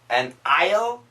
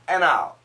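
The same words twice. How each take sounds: First: The D is clearly pronounced between the words. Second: The D is dropped and the words link. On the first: The speaker calls it wrong. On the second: The speaker calls it right. "The N cancels the D. Connect"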